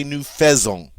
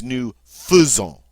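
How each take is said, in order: First: "nous faisons" said wrongly as noo fay-ZONG; wrong pronunciation. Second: "nous faisons" said slowly as noo fuh-ZOHN; the right way, fuh in "faisons"; correct pronunciation. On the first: Teacher showing students the wrong nous faisons. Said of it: "Notice we don't say". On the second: Teacher correcting to the right nous faisons, slow. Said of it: "So get that f in there". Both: Shown as a demonstration.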